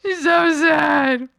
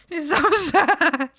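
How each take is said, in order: First: Slow, hammed-up tearful line; mock sad. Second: Breaking into a laugh mid-line; can't hold the sad face, laugh; laughing through it. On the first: Streamer redoing the line as a fake sob. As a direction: pretend to sob it out. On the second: Acted. Streamer trying to say it sadly but laughing.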